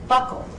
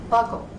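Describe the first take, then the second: No difference in how they are said.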